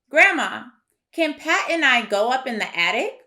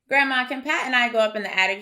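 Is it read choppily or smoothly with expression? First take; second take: smoothly; choppily. First: It is read smoothly with expression. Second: It is read choppily without expression.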